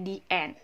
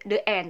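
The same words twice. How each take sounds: First: The word 'the' has a long 'thee' vowel. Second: The word 'the' has a short 'thuh' vowel. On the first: The speaker calls it right. "tapi the end" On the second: The speaker calls it wrong. "bukan the"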